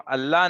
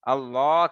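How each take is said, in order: First: The L sound is thin and light. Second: The L sound is thick and heavy. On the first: The speaker calls it wrong. "ये गलत है।" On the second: The speaker calls it right. "उस लाम को मोटा पढ़ना लाजिम है।"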